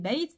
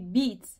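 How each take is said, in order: First: The vowel is an ay diphthong sound. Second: The vowel is a long ee sound. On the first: The speaker calls it right. "il est écrit comme un alphabet, consonne" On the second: The speaker calls it wrong. "c'est un voyelle long de la de de l'harakat euh, kasra"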